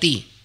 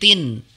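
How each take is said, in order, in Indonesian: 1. Suku kata ini berakhir pada vokal, tidak ada 'n'. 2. Suku kata ini berakhir dengan bunyi 'n' yang jelas. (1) "bukan ti" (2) "di situ tanwin. Jadi tin"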